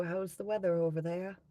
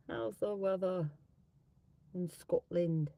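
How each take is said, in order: First: Said in the usual way. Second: Put-on halting, half-successful Scottish accent; tentative stab at a Scottish accent; attempted Scottish accent. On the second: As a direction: try a Scottish accent, dropping the h. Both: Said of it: "do, like, a Scottish accent".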